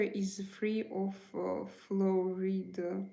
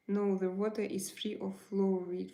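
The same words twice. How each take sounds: First: Slow, halting before FLUORIDE; hesitate, then draw out the word "fluoride"; hesitant. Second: Said in the usual way. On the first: Real, not acted. Streamer answering a viewer about the water, hesitant on fluoride.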